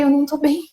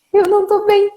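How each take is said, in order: First: Said in the usual way. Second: Alarmed retold plea; urgent plea. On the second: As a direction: repeat it higher, anxious, as if still short of breath. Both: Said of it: "E eu falei".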